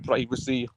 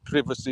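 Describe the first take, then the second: First: The word is said with an American pronunciation. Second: The word is said with a British pronunciation. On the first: "I grew up with like American like pronunciation of privacy" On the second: "not privacy"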